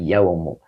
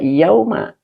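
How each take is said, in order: First: The word ends in a 'u' vowel. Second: The word ends in an 'a' vowel. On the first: The word is read as the predicate of anna. The speaker calls it right. "tetapi yaumu" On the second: The word is read as an adverb of time. The speaker calls it wrong. "Makanya bacanya tidak yauma"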